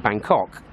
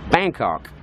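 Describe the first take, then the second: First: BANGKOK stressed on the second syllable, British style. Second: BANGKOK stressed on the first syllable, American style. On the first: Brit showing how limeys say the capital, Bangkok stressed on KOK. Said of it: "emphasis on the second syllable". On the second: Vlogger showing how Thais say the capital, Bangkok stressed on BANG. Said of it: "emphasis is on the first syllable". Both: Shown as a demonstration.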